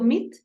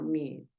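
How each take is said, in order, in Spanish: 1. La vocal se dice corta. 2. La vocal se sostiene un poco más. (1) "No es tanto meet" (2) "sino meet. Una lar- un pedacito más largo"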